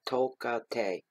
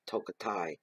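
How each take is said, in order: First: The last syllable is pronounced 'tay'. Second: The last syllable is not pronounced 'tay'. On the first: It follows the ending written with A E. "I pronounce it as Tay" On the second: Some other people say it this way. "some say Tokatai"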